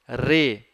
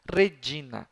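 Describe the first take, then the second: First: REGINA as Re, gi, na, with pauses; split into syllables. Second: Said in the usual way. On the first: Shown as a demonstration. Teacher dividing the word for pupils, split into syllables. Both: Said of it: "separar as palavras em sílabas".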